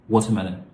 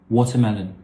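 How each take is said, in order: The two takes are said the same way.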